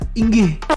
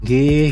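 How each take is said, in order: First: The word starts with a firm, clear i sound. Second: The word starts directly with the ng sound. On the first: "i-nya itu lebih tegas" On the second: "Jawa dia mengucapkannya nggih gitu"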